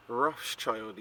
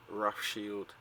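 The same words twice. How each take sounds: First: Put-on Rothschild said as Roths-child; first pronunciation. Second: Rothschild said as Roth-shield; alternative pronunciation. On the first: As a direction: end Rothschild like the word child. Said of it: "is also pronounced". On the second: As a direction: end Rothschild like the word shield. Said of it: "is also pronounced Rothschild". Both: Shown as a demonstration.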